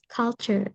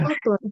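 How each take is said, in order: First: The second syllable sounds like 'chur'. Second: The second syllable sounds like 'toor'. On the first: The speaker calls it right. "Yes, culture" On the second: The speaker calls it wrong. "Not kultur"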